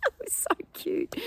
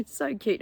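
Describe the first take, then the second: First: High, breathless whisper of delight; gushing. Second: Said in the usual way. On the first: Real, not acted. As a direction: squeak out how cute it was. Gushing over baby in towel.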